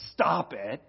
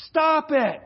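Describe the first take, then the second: First: A mild, offhand stop it; flat dismissive. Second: Loud, higher, blunt command; commanding shout. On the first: Retold or imitated. Pastor mocking a careless counselor's reply, mild offhand tone. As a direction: toss it off without care. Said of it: "I'm not gonna just sit and say". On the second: Acted. Pastor giving the church its first command, loud blunt shout. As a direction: bark the command at the flock. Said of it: "the first command is".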